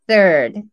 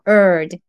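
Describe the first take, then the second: First: The word starts with a th sound. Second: The word is said without the th sound. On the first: The speaker calls it right. "th 入れると" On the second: The speaker calls it wrong. "ないと"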